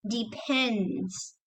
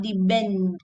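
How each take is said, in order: First: "depends" slow, with a puffed P; clear P. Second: "depend" said as "debend"; voiced B in the middle of "depend". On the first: Teacher correcting the B, clear P in "depends". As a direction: stretch "depends" around a clean, softer P. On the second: Teacher showing the mistake, B in "depend". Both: Shown as a demonstration. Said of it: "not depend".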